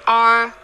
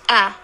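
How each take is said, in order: First: The vowel is long and full. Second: The vowel is short and reduced. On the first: The speaker calls it wrong. "We don't say are. we don't use long a" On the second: The speaker calls it right. "Just a"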